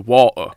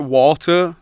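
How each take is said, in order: First: The middle T is dropped entirely. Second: The middle T is clearly pronounced. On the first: It is the local way of saying it back home. "Like you don't even say the T" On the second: It is said so that Americans understand. "but I pronounce the T"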